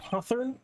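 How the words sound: The name is said with a British-sounding accent. The speaker calls it wrong. "Why'd I say it like that? ... I'm not British"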